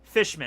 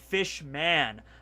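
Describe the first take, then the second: First: The last syllable is reduced, like a surname. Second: The last syllable has a full 'man' vowel. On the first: The speaker calls it wrong. "I end up saying fishman" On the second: The speaker calls it right. "it's supposed to be fishman"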